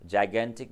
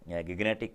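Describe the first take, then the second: First: It begins with a j sound, said jai-gantic. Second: It begins with a hard g, said gig-netic. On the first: This is the normal way to say it. "वैसे तो जाइगेंटिक बोलते हैं इसको" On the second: This is a spelling-based reading to help remember it. "या आप इसे गिगनेटिक कहो"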